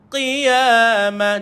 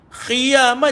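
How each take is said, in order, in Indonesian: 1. Dimulai dengan hambatan dalam, tanpa udara keluar. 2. Dimulai dengan bunyi kh yang bergesek. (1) "jangan keluarkan air, jangan keluarkan angin" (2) "Kalau tuan-tuan keluar air, dia jadi khiyamah jadi huruf kha pula"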